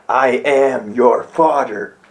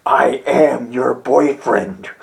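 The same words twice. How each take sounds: First: Low, slow Vader line; a hint of Vader, lowered and slowed; Darth Vader. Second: Low, slow mock Vader; a light Vader impression. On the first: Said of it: "you know how he says". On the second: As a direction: intone it like Darth Vader, deadpan. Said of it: "You have Darth Vader saying".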